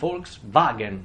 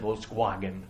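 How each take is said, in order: First: The word begins with a V sound. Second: The word begins with a W sound. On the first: The speaker calls it right. "voi dite Volkswagen" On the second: The speaker calls it wrong. "non dite Volkswagen, non è inglese"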